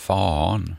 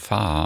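First: The vowel is a back a sound. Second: The vowel is a long front a sound. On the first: The speaker calls it wrong. "Man säger inte fan" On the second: The speaker calls it right. "ett långt främre A. Man säger fan"

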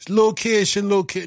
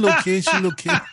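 First: It is said in the speaker's ordinary accent. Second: It is said in an imitated Scouse accent.

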